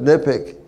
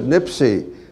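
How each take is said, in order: First: It is said as one word ending in 'ick'. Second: It is said as one word ending in 'see'. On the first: This is the speaker's own way of saying it. "I pronounce it Nipik" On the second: This is how someone else says it. "Joe Bass pronounced it Nipsey"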